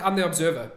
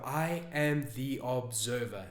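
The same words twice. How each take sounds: First: Quick, louder, tossed-off read; glanced over. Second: Slow, soft, reflective reading. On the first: Coach shows viewers how not to reread a journal, glancing over it. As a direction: rush through it without taking it in. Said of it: "don't glance over it". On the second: Coach shows viewers how to reread a journal entry, very slowly. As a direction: take it slowly, softly, letting each word sink in. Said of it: "and you do it slowly". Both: Shown as a demonstration.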